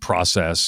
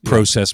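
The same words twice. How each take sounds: First: The word is said with an American pronunciation. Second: The word is said with a Canadian pronunciation.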